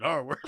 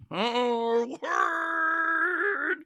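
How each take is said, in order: First: Said in the usual way. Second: High, long drawn-out comic scream; mock inner scream. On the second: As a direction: scream it like a voice inside your brain. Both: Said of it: "I scream it in my brain".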